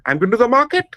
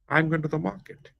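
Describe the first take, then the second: First: The pitch rises at the end. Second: The pitch falls at the end. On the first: The speaker calls it wrong. "if I use the same sentence with the rising intonation, it will become funny" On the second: The speaker calls it right. "There's a fall in the peach"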